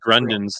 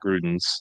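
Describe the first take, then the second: First: An n sound comes before the d. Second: No n sound comes before the d. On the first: The speaker calls it right. "actually Grundens" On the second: The speaker calls it wrong. "not Grudens"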